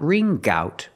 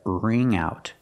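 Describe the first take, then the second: First: A hard g sound joins the two words. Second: The nasal ng links straight into out. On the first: The speaker calls it wrong. "Not ring gout" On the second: The speaker calls it right. "but ring out. Link the sounds mm with the ow"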